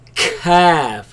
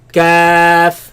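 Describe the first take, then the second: First: The k sound is pushed out like a cough. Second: The k sound is light, without a cough. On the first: The speaker calls it wrong. "do not cough it out. Don't say calf" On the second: The speaker calls it right.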